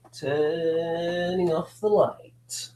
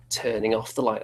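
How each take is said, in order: First: Slow, eerie horror voice; spooky voice. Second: Said in the usual way. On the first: Acted. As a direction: draw it out like a haunted-house host. Spooky retake of same line.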